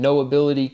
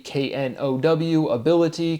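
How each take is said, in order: First: Said in the usual way. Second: Knowability spelled K N O W, then ability said apart and higher; letter by letter K N O W, a pause, then lift ability; spelled out then split. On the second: Shown as a demonstration. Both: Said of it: "contains the word know ability".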